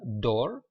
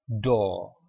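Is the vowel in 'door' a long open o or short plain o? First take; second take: short plain o; long open o. First: The vowel is a short, plain o. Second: The vowel is a long, open o. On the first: The speaker calls it wrong. "bukan door" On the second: The speaker calls it right. "tapi o, door"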